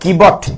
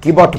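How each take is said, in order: First: The middle consonant is a 'b' sound. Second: The middle consonant is a 'b' sound.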